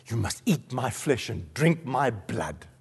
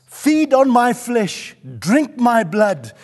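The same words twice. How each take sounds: First: Low, soft and slow, with weight; hushed, solemn quote. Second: Slow, raised preacher's cry; forceful proclamation. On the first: Preacher quoting Jesus to the congregation, hushed and solemn. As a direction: lay the words down quietly and gravely. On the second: Preacher proclaiming Jesus's command to the congregation, forceful proclamation. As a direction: proclaim each phrase at full force. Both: Acted.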